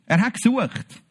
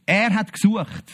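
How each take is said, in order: First: "gesucht" stressed with a falling close; "gesucht" as the word that matters. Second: "er" stressed, the rest falling away; "er" pushed forward as the key word. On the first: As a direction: land the weight on "gesucht". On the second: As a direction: lean on "er", not the verb. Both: Shown as a demonstration.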